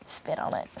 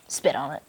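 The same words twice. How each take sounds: First: Put-on breathy whispered old lady; whispered granny voice; Granny's whisper. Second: Low, soft granny mutter; deep quiet granny voice; Granny again. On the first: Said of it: "And then you have Granny over here just". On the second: Retold or imitated. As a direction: drop low like Granny egging you on. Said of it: "She's over here".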